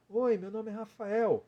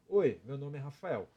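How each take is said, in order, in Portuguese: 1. A voz é aguda, colocada na cabeça. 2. A voz é simples e sai da boca. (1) "É uma voz aguda" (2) "vou fazer normal igual no português"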